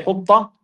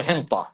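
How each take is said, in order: First: حطة as "hitta", with no n; حطة, straight from vowel into t; supposed word. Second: حنطة as "hinta", with an n; حنطة with nun before the t; added nun. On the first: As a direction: say حطة with a doubled t, no nun. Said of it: "They're supposed to say". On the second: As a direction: sound the extra n in حنطة. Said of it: "they added a nun". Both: Shown as a demonstration.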